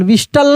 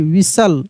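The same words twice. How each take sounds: First: "विस्टल" with the T sounded; wrong T-sounded pronunciation. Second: "विसल" with no T sound; silent T. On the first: Teacher showing what not to read, "विस्टल" with T sounded. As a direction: sound the T in "विस्टल", "vis-tal". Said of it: "विस्टल नहीं". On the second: Teacher correcting the reading, "विसल" with silent T. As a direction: say "विसल" as "vis-sal", T dropped. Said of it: "विसल, विस्टल नहीं". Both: Shown as a demonstration.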